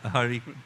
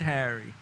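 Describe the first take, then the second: First: The name sounds like the Indian name Hari. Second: The name sounds like the English name Harry.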